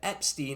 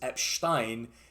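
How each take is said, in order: First: The name is pronounced in the usual English way. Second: The name is pronounced in a German style.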